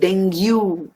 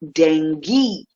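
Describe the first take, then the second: First: The word ends with a 'gyoo' sound. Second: The word ends without a 'gyoo' sound. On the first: The speaker calls it wrong. "like the word argue" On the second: The speaker calls it right. "but it is dengue"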